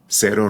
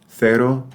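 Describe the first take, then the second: First: The c is pronounced like an s sound. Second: The c is pronounced like a th sound. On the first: "S sound" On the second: "in much of Spain, where C before A or E is pronounced like the T H sound in thanks"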